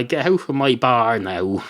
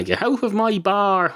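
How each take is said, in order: First: Said in the usual way. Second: Higher-pitched "get out of my bar"; insistent order. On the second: Acted. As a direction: repeat the order with the pitch lifted. Barman repeats order to leave.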